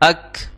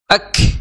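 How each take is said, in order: First: The final k is released plainly, without extra breath. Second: The final k is released with heavy breath. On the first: The speaker calls it right. "jadi biasa saja ... tidak berhembus yang berlebih" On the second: The speaker calls it wrong. "akhirnya mengucapkannya itu ak ... Maka ini kurang tepat"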